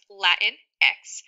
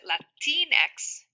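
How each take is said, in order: First: The vowel after 'Lat' is a short 'ih'. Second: The vowel after 'Lat' is an 'ee' sound. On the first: "Typically, it is pronounced" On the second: "Spanish speakers may pronounce it ... the I makes more of an E sound"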